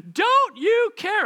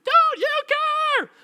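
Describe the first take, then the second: First: High, loud, drawn-out cry; shriek. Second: Piercingly high, loud, stretched-out screech; over-the-top shriek. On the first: A narrator's reading. Drowning disciples question Jesus, shrieking desperately. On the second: Shown as a demonstration. Preacher relishes the disciples' word, shrieking it to the limit. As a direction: push the shriek to its hammed-up extreme. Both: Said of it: "I like the word shrieked".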